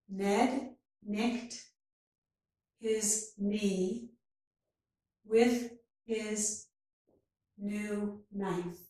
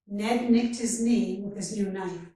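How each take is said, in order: First: The sentence is spoken very slowly. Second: The sentence is spoken at natural speed. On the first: "first very slowly" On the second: "and then at a more natural speed"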